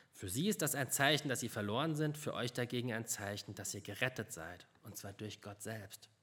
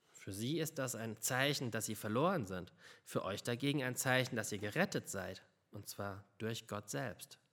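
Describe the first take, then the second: The two takes are said the same way.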